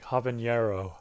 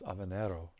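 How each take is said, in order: First: The middle consonant is an 'ny' sound. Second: The middle consonant is a plain 'n' sound. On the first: The speaker calls it wrong. "Everyone's like habanero" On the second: The speaker calls it right. "It's habanero"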